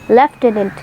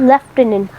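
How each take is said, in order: First: It is said the British way, lef-tenant. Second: It is said the British way, lef-tenant.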